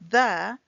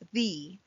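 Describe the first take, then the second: First: The vowel is a short, weak 'uh' sound. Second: The vowel is a long 'ee' sound. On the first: This is the usual everyday form. "most people pronounce this word as the with a silent E" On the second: This may come across as pretentious. "it's perfectly acceptable to say it as the with a long sounding E"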